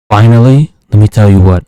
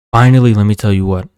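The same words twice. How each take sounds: First: Louder, lower "let me tell you what"; loud announcement. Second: Said in the usual way. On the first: Real, not acted. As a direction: call it out for the punchline. Build-up before a final insult.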